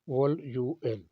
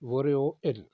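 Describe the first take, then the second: First: Each syllable is said separately, with an l sound. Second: The l carries over and sounds like r. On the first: This is how the word is written. "Monday को कहते हैं वोल यू एल" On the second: This is how the word is actually pronounced. "Pronounce होगा वोरियोइल"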